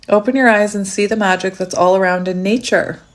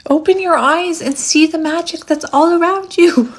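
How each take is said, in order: First: Said in the usual way. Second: High, swooping theatrical voice; hammed-up mystical urging; dramatic proclamation. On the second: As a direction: proclaim it grandly, high and playful. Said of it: "I'm hearing Grandmother Willow from Pocahontas".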